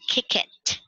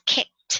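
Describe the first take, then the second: First: The ending is said as an extra syllable. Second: The ending is said as a short t sound. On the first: The speaker calls it wrong. "You don't say kick it" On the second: The speaker calls it right. "you just add T at the end"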